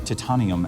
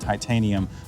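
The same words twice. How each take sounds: First: It is said imitating another person's pronunciation. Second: It is said in the speaker's usual pronunciation.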